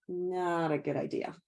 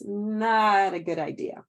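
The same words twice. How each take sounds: First: Said in the usual way. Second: "Not a good idea" said slowly and firmly, leaning on "Not"; slow, emphatic warning. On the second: Shown as a demonstration.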